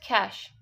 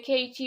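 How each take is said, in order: First: It is said as one syllable, like cash. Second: It is said with two syllables, like kay-shee. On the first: The speaker calls it right. "It's just cache" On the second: The speaker calls it wrong. "keichi or something. We don't say like that"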